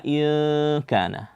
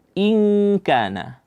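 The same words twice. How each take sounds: First: "in kana" with the held n turned to a nasal vowel; wrong ikhfa. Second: "in kana" with a held ng hum before k; correct ikhfa. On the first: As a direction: hum "in" without closing to ng before "kana". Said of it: "Jangan dibaca". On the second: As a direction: hum "ing" long, then release "kana". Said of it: "Ya, dibaca". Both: Shown as a demonstration.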